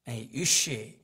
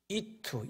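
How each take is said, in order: First: The word is said with an sh sound. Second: The word is said with a t sound. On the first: This is the ordinary Hebrew pronunciation. "유쉬 이게 이제 사람이란 뜻인데 히브리어로" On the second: This marks the speaker as a Galilean. "이투 이렇게 발음을 했어요"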